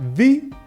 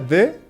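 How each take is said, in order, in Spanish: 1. La palabra termina en una vocal larga 'ee'. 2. La palabra termina en una vocal corta 'uh'. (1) "se pronuncia the cuando el sustantivo comienza con una vocal" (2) "Se pronuncia de cuando el sustantivo empieza con una consonante"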